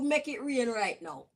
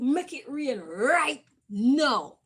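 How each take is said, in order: First: It is said in a gentle, soft tone. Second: It is said in a rough, demanding tone. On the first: "I said it like that" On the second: "I didn't say it like that rough"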